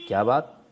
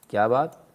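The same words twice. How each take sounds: The two takes are said the same way.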